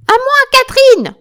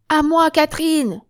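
First: Very high, full-force scream for backup; screamed call. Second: High, loud call for backup; raised call. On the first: Wounded Joséphine summons Catherine, screaming at full force. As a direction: shriek for your comrade at the top of your voice. Retake, hurt woman calls for help. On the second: Joséphine summons Catherine to help, in a raised, urgent call. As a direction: call out to a comrade, short of screaming. First take of call to comrade. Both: Acted.

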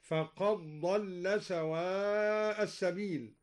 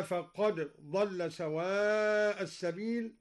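First: Slow recitation, "فقد ضل" run together as faqad-dalla with one heavy dad; dal assimilated into dad. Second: Slow recitation, "فقد ضل" as faqad dalla with two distinct sounds; recitation without assimilation. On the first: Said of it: "أدغم الدوري الدال في الضاد هكذا". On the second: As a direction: say the dal of "فقد ضل" as its own letter. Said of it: "أدغم الدوري الدال في الضاد". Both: Shown as a demonstration.

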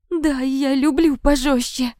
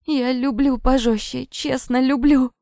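First: High, slow, wailing confession; forced out in tearful despair; desperate submission. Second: High, pleading insistence; barely able to speak. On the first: Victim forced to repeat, louder. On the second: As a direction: plead weakly as if barely conscious. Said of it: "едва шевеля языком, проговорила я". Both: A narrator's reading.

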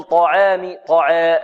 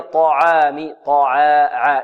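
First: "طعام" with the alif tilted toward "e"; wrong taqlil. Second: "طعام" with an open "aa" after ع; pure fatha. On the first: Teacher shows what not to do, alif leaning to "e" in "طعام". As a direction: front the long vowel in "طعام، طعا". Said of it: "هذه تقليل". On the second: Teacher corrects the taqlil, open light "aa" in "طعام". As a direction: keep the alif in "طعام" open, without tilting to "e". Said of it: "وإنما هي". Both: Shown as a demonstration.

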